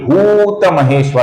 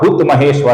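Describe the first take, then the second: First: The first vowel is said long. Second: The first vowel is said short. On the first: The speaker calls it right. "भू दीर्घ है, इसका हमें लंबाई से उच्चारण करना है" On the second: The speaker calls it wrong. "ऐसा गलत उच्चारण करते हैं"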